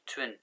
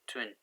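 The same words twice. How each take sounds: The two takes are said the same way.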